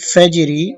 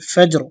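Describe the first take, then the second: First: The word ends with a short i vowel. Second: The word ends on a bare r consonant. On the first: The word is read joined to what follows. "রা জির রি ফাজরি" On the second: The reader stops at this word. "ওয়াকফ করব ... উচ্চারণ হবে ফাজর"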